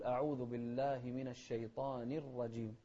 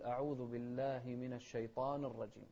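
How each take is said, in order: First: الشيطان ending in a clear -ni before الرجيم; clear kasra. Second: الشيطان with the final nun left vowelless; dropped vowel mistake. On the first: Shown as a demonstration. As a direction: sound the short i after the n of الشيطان. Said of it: "نوضح الكسرة". (نطق الشيطان بكسرة واضحة على النون) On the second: Retold or imitated. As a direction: say الشيطان ending on a bare n before الرجيم. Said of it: "فيسكن النون". (نطق الشيطان بتسكين النون خطأً)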